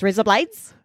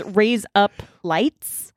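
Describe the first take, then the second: First: "raise up lights" run together quickly; really fast. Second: "raise up lights" slowly, word by word; slowed Australian demo. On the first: Showing the Australian accent trick, really fast. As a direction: rattle it off as mock-Australian "razor blades". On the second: Explaining an Australian accent trick, slow demonstration. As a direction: spell out the Aussie trick slowly. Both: Shown as a demonstration. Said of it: "Just really fast".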